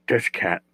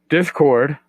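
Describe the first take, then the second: First: "Discat" with a final "cat" in place of "cord"; mispronounced Discord. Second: Said in the usual way. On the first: Real, not acted. Tired podcaster fumbles the server name, "Discat" said for Discord. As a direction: slip on the word, saying "Discat". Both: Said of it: "Oh my God, I should go back to bed".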